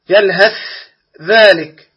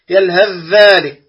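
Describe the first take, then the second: First: The th sound is pronounced clearly and separately. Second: The th sound merges into the following dh sound. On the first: The speaker calls it wrong. "خطأ الثالث إظهار المتجانسين الصغير" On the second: The speaker calls it right. "والصواب في ذلك الإدغام"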